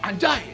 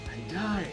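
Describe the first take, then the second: First: It is said with open anger. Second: It is said with impressed admiration. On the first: The word is meant as an insult. "kita marah" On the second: Something looks impressive. "itu juga adalah kekaguman"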